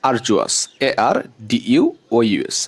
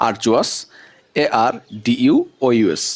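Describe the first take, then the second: Both takes have the same delivery.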